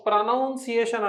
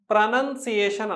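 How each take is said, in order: First: ప్రొనౌన్సియేషన్ as pruh-NOUN-see-AY-shun; wrong pronunciation. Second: ప్రొనౌన్సియేషన్ as pruh-nun-see-AY-shun; correct pronunciation. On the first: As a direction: say ప్రొనౌన్సియేషన్ with "noun" in the second syllable. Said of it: "ప్రొనౌన్సియేషన్ అనకూడదు". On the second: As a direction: say ప్రొనౌన్సియేషన్ with a short "nun" second syllable. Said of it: "ప్రొనౌన్సియేషన్ అనాలి". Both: Shown as a demonstration.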